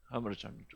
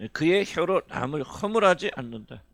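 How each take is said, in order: First: Soft echo. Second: Said in the usual way. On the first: Shown as a demonstration.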